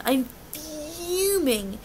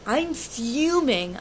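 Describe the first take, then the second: First: "fuming" higher, with a long held f; drawn-out FUMING. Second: Slow, emphatic "fuming" at normal volume. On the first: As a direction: hold the first sound of "fuming", then rise in pitch. Repeats it more drawn out for emphasis. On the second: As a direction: lean slowly on "fuming". Retelling her anger, first take. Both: Retold or imitated.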